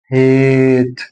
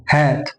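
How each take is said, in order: First: هات as a long level "haaate"; long vowel. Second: هات as a short "hat"; short vowel. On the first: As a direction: stretch هات on an ay sound. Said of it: "طب حطيت إي". (هات بالصوت الطويل) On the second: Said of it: "من غير إي". (هات بصوت قصير) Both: Shown as a demonstration.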